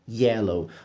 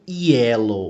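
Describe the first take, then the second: First: It begins with a soft, subtle J-like sound. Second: It begins with a strong J-like sound. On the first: The speaker calls it right. "tem uma puxadinha de J, mas é muito sutil" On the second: The speaker calls it wrong. "a gente não fala bem yellow"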